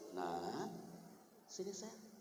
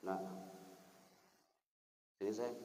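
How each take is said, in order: First: It is said warmly and softly, with a smile. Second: It is said coldly, without warmth or softness. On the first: The speaker calls it right. "yang pertama ... Karena dari hati" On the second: The speaker calls it wrong. "cara ngomongnya yang beda"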